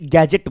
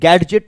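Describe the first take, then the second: First: No d sound is heard before the j. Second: A distinct d sound comes before the j. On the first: The speaker calls it right. "आप इसे गैजेट बोलते हैं" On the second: The speaker calls it wrong. "आप इसे गैडजेट नहीं बोलते हैं"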